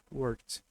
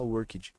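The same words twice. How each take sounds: First: Worked as one syllable, "workt"; correct pronunciation. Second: Worked said as "uórkidji"; wrong Brazilianized ending. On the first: Teacher confirming the right form, worked as "workt". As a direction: end worked on a crisp T. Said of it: "É isso mesmo". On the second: Teacher warning students off it, worked as "uórkidji". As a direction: add syllables to worked, ending in "djee". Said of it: "Nunca mais você vai falar worked". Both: Shown as a demonstration.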